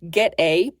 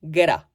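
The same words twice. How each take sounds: First: The two words are said separately. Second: The two words are blended into one.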